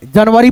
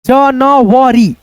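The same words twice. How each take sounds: First: Said in the usual way. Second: Very slow, syllables pulled apart; January sounded out very slowly; sounding out. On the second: Shown as a demonstration. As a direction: spell out January ja-na-va-ri. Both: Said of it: "जनवरी पढ़ेंगे".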